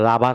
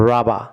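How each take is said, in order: First: "রাবার" said with a sounded final r; wrong pronunciation. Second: "রাবা" ending on an open "aa", no r; correct pronunciation. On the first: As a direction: demonstrate "রাবার" wrongly, ending in "-bar". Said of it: "wrong pronunciation". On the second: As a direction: model "রাবা" as RA-ba, final r silent. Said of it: "এটি অবশ্যই আ sound হবে". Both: Shown as a demonstration.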